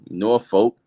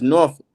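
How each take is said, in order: First: The name is said the way outsiders say it. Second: The name is said as one smooth flow. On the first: The speaker is not from around here. The speaker calls it wrong. "it ain't Norfolk" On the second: The speaker belongs there. The speaker calls it right. "it's Norfolk ... Like just one floor of the word"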